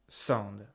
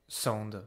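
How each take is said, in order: Both takes have the same delivery.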